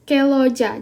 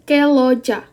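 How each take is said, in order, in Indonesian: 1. Bunyi sengau sebelum l dihilangkan. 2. Bunyi sengau sebelum l dihilangkan.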